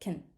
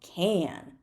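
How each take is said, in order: First: The word is said quickly with a reduced vowel. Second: The word is said fully with a clear vowel. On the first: "It's going to be like" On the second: "it's the strong form"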